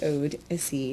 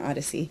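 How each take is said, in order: First: The first syllable sounds like 'ode'. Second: The first syllable sounds like 'odd'. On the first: The speaker calls it right. "It actually is Ode-issy" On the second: The speaker calls it wrong. "not Odyssey"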